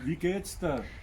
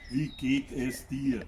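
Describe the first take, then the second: First: The words are run together in a short form. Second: Every word is said fully and separately. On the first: "Das ist einfach" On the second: "Das ist viel zu lang"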